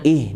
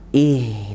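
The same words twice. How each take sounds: First: The h sound is cut off quickly. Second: The h sound flows out a little longer. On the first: The speaker calls it wrong. "jangan ih, dina, taruh cepat" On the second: The speaker calls it right. "ngalirin dulu, agak lama ya"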